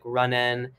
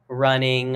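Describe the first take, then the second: First: The word is clipped with the final g dropped. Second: The word is said fully with the final g. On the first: "we don't pronounce all the words all the time when we're singing" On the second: "we don't go like running a lot of times"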